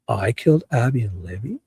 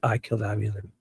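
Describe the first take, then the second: First: The voice rises at the end, like a question. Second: The voice falls at the end, like a statement. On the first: He is questioning the accusation, not admitting it. "Like in a question form" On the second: He is admitting to the killings. "if you clip it out of context"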